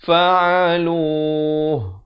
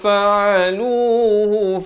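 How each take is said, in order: First: The word ends on a bare 'h'. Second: The word ends with a 'hu' vowel. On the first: The reading stops at this word. "Kalau waqaf" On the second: The reading continues to the next word. "Kalau kita nak sambung"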